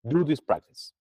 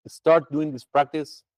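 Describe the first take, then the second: First: Said in the usual way. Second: "Start" stretched out slow and leaned on; emphatic, slow. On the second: Shown as a demonstration. Teacher urging students to practise monthly, slow and emphatic. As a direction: say "Start doing this practice" slowly, pressing every word. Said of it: "say it with more emphasis".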